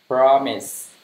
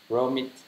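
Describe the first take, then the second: First: "Promise" with a clean p and a final s; correct pronunciation. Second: "Promise" said with a b and a t at the end; common mistake. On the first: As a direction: say "Promise" properly, p at the start and s at the end. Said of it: "Đó là promise". (đọc đúng "Promise", âm p đầu và s cuối) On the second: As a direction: mispronounce "Promise" as b-romit, a t at the end. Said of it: "hay nghe người nào là promise đúng không?". (đọc sai "Promise" thành b-romit, âm t cuối) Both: Shown as a demonstration.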